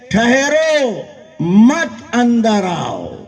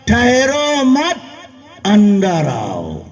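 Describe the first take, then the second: First: The pause comes right after ठहरो. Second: The pause comes right after मत.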